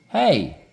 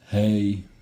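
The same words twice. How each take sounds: First: The pitch rises on the word. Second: The pitch stays flat on the word. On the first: It gets the listener's attention. The speaker calls it right. "you really want to use that inflection to go up" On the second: It sounds boring and could be rude. The speaker calls it wrong. "If you just talk flat"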